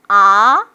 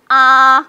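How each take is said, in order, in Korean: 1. 음높이가 중간에서 높은 쪽으로 올라갑니다. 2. 음높이가 계속 높고 평평하게 유지됩니다. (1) "이성, 올라갔죠?" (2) "일성"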